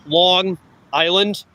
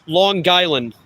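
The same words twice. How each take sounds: First: Long Island said slowly and carefully; slowed down. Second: Long Island run together like a New Yorker, the g flowing into Island; local way. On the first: Explaining to viewers, slow careful Long Island. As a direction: stretch out Long Island, each part clear. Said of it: "If you say it slower". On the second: Telling chat how natives say it, local Long Island. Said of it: "That's how you say it". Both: Shown as a demonstration.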